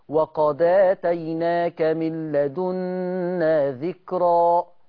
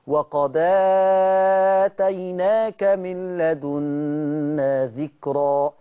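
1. الحركة اللي بعد الهمزة بتتمد قصيرة. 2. الحركة اللي بعد الهمزة بتتمد متوسطة. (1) "لو انا قصرت البدل" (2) "التوسط البدل"

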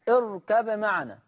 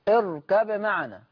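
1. تُنطق الباء بوضوح قبل الميم. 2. تُنطق الباء بوضوح قبل الميم.

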